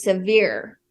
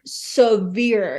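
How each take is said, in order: First: Said in the usual way. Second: Severe drawn out very slowly; emphatic stress on severe. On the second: Real, not acted. Guest stressing how harsh shunning was, "severe" slow and heavy. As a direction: stretch "severe" long for weight.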